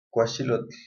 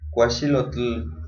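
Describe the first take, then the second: First: The final L sound is said softly. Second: The final L sound is said strongly. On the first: The speaker calls it right. "La pronunciación de la L es un sonido bajo, un sonido suave" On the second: The speaker calls it wrong. "Si pronunciamos con la última letra y con un sonido más fuerte, la pronunciación se oye mal"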